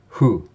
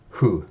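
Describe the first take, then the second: First: It starts with a soft breathy H-like sound. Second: The same.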